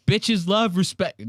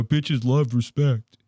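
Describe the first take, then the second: First: Slow corny punchline. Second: Slow corny quote. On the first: Shown as a demonstration. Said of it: "Ain't that the corniest joke?". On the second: Retold or imitated. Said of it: "They go".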